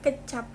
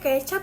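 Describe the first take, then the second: First: The first vowel is a reduced schwa. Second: The first vowel is a clear open e. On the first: The speaker calls it wrong. "bukan kecap" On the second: The speaker calls it right. "Ngomongnya kecap"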